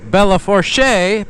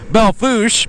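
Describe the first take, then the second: First: The name is said the expected, spelled-out way. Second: The name is said the local way. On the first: This is how the name would be said elsewhere. "which should be pronounced Bella Fourche" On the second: This is how people there say it. "but it's called Belle Fourche"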